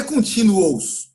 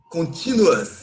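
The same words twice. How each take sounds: First: "continuous" with a full Portuguese "-ous" ending; wrong Brazilian pronunciation. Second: "continuous" ending in an open "a" sound before the s; correct English pronunciation. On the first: English teacher showing students what to avoid, Brazilian mispronunciation. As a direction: say "continuous" Brazilian-style, final vowel as a clear "o". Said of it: "Olha a pronúncia da palavra contínuo. Não é continuous".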